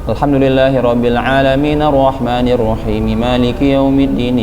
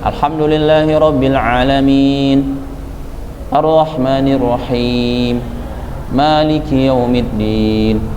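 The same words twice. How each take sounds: First: The verses run together without pausing between them. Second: There is a pause after each verse. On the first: The speaker calls it wrong. "ketiga sambung terus. Ini misalnya" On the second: The speaker calls it right. "Nabi ayat demi ayat"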